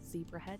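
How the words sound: The name is said with an American pronunciation.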